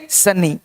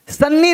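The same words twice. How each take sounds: First: Second सन्नी as "sa-nee", one n; undoubled सन्नी; single consonant. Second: First सन्नी as "san-ni", n held; geminated सन्नी; doubled consonant. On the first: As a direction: say सन्नी without doubling the n. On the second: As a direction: sound both n's in सन्नी. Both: Shown as a demonstration. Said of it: "नहीं".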